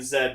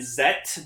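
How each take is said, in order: First: The name ends with a d sound. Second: The name ends with a t sound. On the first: This is how Canadians say the letter. "because I'm Canadian and that's how we say Z" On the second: This is the official pronunciation of the name. "technically the pronunciation is Ultraman Zet"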